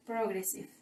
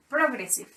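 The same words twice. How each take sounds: First: "progressive" said softly with GRES stressed; a soft model of "progressive", pro light, GRES strong; correct stress. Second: "progressive" with the weight on GRES; stress on second syllable. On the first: Teacher giving the correct pronunciation of "progressive". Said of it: "The correct pronunciation is". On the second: Teacher modelling where the stress falls in "progressive". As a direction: keep "pro" light, land on GRES. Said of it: "first syllables does not have an accent". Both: Shown as a demonstration.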